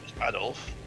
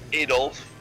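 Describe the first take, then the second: First: The name is said with a British pronunciation. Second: The name is said with an American pronunciation. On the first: The speaker calls it right. "Nope, it's Adolf" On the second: The speaker calls it wrong. "Americans get a lot of things wrong"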